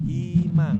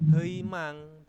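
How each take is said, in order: First: The first vowel sounds like 'ee'. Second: The first vowel sounds like 'ei'. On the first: The speaker calls it right. "tetapi himang" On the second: The speaker calls it wrong. "ini bacanya bukan heimang"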